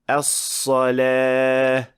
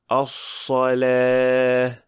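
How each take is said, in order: First: The s sound has a strong whistle. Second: The s sound has a weak whistle. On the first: The speaker calls it right. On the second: The speaker calls it wrong.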